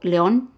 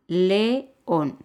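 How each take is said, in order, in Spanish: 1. Las dos vocales se unen en una sílaba. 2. Las dos vocales forman sílabas separadas. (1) "ahí yo no pongo león" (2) "ahí son dos sílabas"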